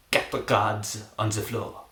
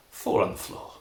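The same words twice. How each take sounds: First: Mock French accent, drawn out. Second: Said in the usual way. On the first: Shown as a demonstration. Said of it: "that's better in English". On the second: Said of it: "that's better in English, that one".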